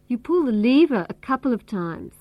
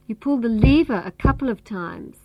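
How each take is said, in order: First: The word lever carries the main stress. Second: The same.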